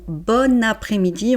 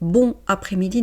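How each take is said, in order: First: The n of bon links into après-midi. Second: The n of bon is not linked onward. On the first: The speaker calls it right. "on fait la liaison" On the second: The speaker calls it wrong. "ne dites"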